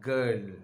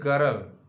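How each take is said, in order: First: The word sounds like 'gal', without an r. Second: The word is said with a strong r sound. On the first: The speaker calls it right. "has to be pronounced as G A L" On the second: The speaker calls it wrong. "People say girl"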